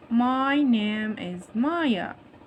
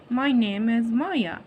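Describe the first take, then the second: First: Very slow, MY and NAME stretched out; slow modelling. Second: Said in the usual way. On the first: Shown as a demonstration. Teacher models the dialogue for young pupils, slow and drawn-out. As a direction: draw out each word of "My name is Maya". Teacher repeats reply extra slowly.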